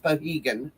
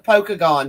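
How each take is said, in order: First: The name is said with an h, no k. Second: The name is said as spelled, with a k. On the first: It follows local usage. The speaker calls it right. "but it's Pohegan" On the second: It follows the written spelling. The speaker calls it wrong. "I pronounce it Pokagon because that's how it's spelled"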